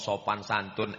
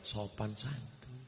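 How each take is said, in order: First: Said in the usual way. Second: Sopan santun said much softer and slower; gently, as if to prove he can be soft; answering the complaint that he is harsh, very soft; softened on purpose. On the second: Shown as a demonstration. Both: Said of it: "kalau gitu kita perlembut".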